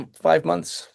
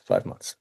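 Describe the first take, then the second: First: Said in the usual way. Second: Breathy whisper to herself; soft whispered repeat. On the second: Real, not acted. Repeats the answer, then softly.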